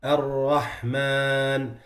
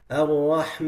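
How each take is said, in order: First: Very slow Ar-Rahman, alif from the mouth; correct Ar-Rahman. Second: Ar-Rahman with the alif through the nose; nasalised Ar-Rahman. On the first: Teacher showing students the right Ar-Rahman. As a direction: keep the alif in Ar-Rahman oral. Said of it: "instead of saying". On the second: Teacher showing students a wrong nasal Ar-Rahman. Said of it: "they say". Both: Shown as a demonstration.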